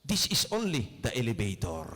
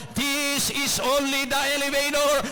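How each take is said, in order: First: Said in the usual way. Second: "This is only the elevator" shouted high, "elevator" stretched and ringing; shouted preaching. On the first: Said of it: "Sabi ng worker". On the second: Shown as a demonstration. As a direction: roar "elevator" like a revelation. (isinisigaw na "This is only the elevator")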